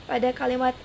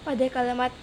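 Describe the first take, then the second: The two takes are said the same way.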